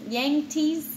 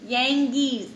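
First: Yangtze said as "yang-teez", the t now sounded; "Yangtze" retried as yang-teez, pitched a bit up; corrected pronunciation. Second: Yangtze said as "yang-geez", with a hard g and no t; "Yangtze" guessed as yang-geez, first try; unsure pronunciation. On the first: Parent reading to child retries "Yangtze" as yang-teez. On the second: Parent reading to child stumbles, says "Yangtze" as yang-geez. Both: Real, not acted. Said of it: "I don't know how to say it".

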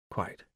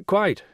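First: "Quite" almost inaudible, much softer; murmured. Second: "Quite" said louder and clearer; repeated more loudly. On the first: Will murmuring into the phone, very softly. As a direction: barely breathe the word. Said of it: "Will murmured". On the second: Will repeating himself down a bad line, louder. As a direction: raise your voice so she hears. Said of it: "Will repeated more loudly". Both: Acted.

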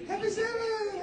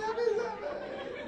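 First: Very high, loud, bright-faced "Happy Sabbath!" put on over hurt; hammed-up church greeter cheer; fake cheerful greeting. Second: Very high, loud, slow sing-song "Happy Sabbath!"; fake happy greeting. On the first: Preacher mimics the fake Sabbath greeting, hammed-up and cheerful. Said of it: "I put on the happy face". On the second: Preacher mimics the church greeting again, laughing, over the top. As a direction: overplay the cheery church hello. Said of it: "we put on that face".

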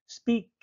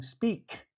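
First: "Speak" with the final K sounded clearly. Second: "speak" with a strongly pronounced final K. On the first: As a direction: land hard on the K in "Speak". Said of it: "The letter here is K". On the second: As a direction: snap the K at the end of "speak". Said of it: "Very strong". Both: Shown as a demonstration.

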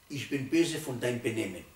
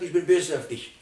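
First: Calmer, measured rebuke; right way to scold. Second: Louder mock scolding of the child; much louder father's rebuke, the wrong way. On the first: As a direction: aim it at the behaviour, not the child. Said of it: "Ganz andere Sache". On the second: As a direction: snap it at the son as the wrong example. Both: Shown as a demonstration.

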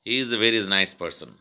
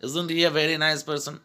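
First: Said in the usual way. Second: High-pitched exclaimed "Isn't he"; emphatic statement as question. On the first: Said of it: "how can you say this sentence". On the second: Shown as a demonstration. Teacher stating, not asking, with "Isn't he" high and emphatic. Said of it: "you are actually saying".

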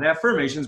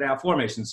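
First: "affirmations" said af-FIRM-ations with the er of firm; the everyday "affirmations" from affirm, the one he rejects; usual affirmations. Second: "affirmations" said af-FORM-ations, middle like the word form. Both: Shown as a demonstration. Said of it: "Not affirmations, but affirmations".

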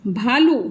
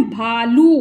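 First: Said in the usual way. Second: भालू with long "aa" and long "oo"; drawn-out vowels. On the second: Shown as a demonstration. Teacher repeating भालू for learners, vowels held long. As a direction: stretch भालू over two slow syllables. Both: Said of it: "आ पूरा आ रहा है".

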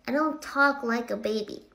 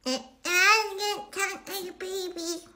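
First: Said in the usual way. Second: Put-on high, slow baby-talk squeal; mock baby voice. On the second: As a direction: drag it out like a whiny toddler. Mock baby-talk against her usual voice.

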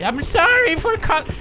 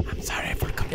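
First: Very high, hammy villain voice; exaggerated high movie-villain apology; Bane. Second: Whispered, tentative apology; soft whisper, breaking off unfinished; hushed false start. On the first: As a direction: badly imitate a masked villain, pitched way up. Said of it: "stop with the Bane voice". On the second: Acted. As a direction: start apologizing under the breath. First quiet try before Bane voice.

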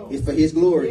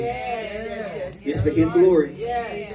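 First: Said in the usual way. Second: Very slow, each word stretched out; slow drawn-out refrain. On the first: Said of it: "repeated refrain, plain take". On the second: Shown as a demonstration. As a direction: drag out It's for his glory for emphasis. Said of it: "repeated refrain, drawn out".

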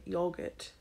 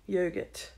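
First: "yogurt" with a short British o, like "yog-ut"; British pronunciation. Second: Said in the usual way. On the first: Shown as a demonstration. Vlogger showing how British people say it, British "yogurt" with a short o. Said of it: "You know how they say yogurt". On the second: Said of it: "how British people say the word".

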